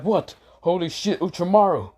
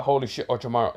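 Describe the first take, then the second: First: Shocked. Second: Said in the usual way. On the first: Acted. Everyone was like. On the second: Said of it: "They're like".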